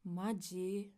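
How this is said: It is said in an annoyed, irritated tone. The speaker is irritated and cannot believe it. "some angry, annoyed expressions"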